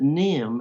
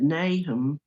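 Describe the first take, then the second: First: The name is said short, like Nim. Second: The name is said as written, Nahum. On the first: This is how the family said the name. "they pronounced it Nim as if it were N I M" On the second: This is the usual pronunciation of the biblical name. "instead of pronouncing it Nahum"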